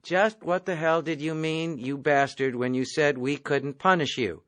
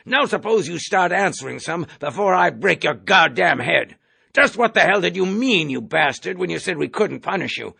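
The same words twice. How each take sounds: First: Lightly voiced clerk reading shorthand aloud; reading back notes. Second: Loud, high threatening bark; furious colonel. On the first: A narrator's reading. Corporal reads the colonel's question from his steno pad. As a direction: read it back off the pad, no heat. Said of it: "reading from his steno pad". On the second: Acted. Colonel bullies Clevenger at the hearing, raging. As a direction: threaten to break his head.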